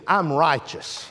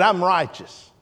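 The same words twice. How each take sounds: First: Low, hushed "I'm righteous"; quiet declaration. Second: "I'm righteous" said again, slowly and with weight; repeated for stress. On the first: Real, not acted. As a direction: let "I'm righteous" sink in softly. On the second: Shown as a demonstration. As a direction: lean on "I'm righteous" the second time. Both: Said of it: "I said".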